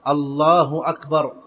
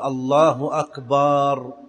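First: No vowel is drawn out in either word. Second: The vowel after b in the second word is drawn out. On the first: It is a plain statement. The speaker calls it right. "يجب أن يأتي باللفظ معربا" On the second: It refers to drums. The speaker calls it wrong. "لا يصح أن يمد الباء في أكبر"

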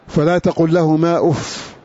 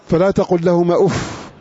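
The two takes are said the same way.

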